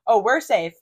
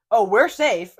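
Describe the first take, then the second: First: Loud bright blurt; really loud. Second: Sudden loud cheery reply; really loud. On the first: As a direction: say it loud, caught off guard. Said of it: "Like, really loud". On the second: Roommate blurting loudly to passing guys. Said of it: "Like, really loud, just, like, in that same, like, voice". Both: Retold or imitated.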